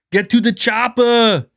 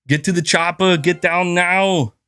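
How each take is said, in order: First: Arnold scream. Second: Slow, hammed-up Austrian accent; Arnold impression. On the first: Pretend. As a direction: yell it like Arnold with a heavy Austrian accent. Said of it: "screaming like Arnold". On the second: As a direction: drag out the Austrian movie lines. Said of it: "trying to mimic them".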